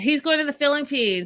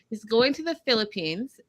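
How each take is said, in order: First: It is said at normal speed. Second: It is said more slowly.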